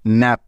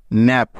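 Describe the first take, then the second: No difference in how they are said.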